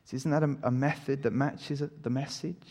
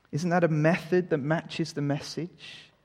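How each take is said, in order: No difference in how they are said.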